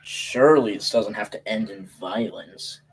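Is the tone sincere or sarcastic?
sarcastic. It is said in a sarcastic tone.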